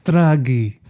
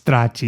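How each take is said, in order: First: The name is said with an Italian-style pronunciation. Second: The name is said with an American pronunciation. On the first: This is how the older character says the name. "I think Don Corleone pronounces like Stragi" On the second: This is how the younger character says the name. "because that's what Michael says"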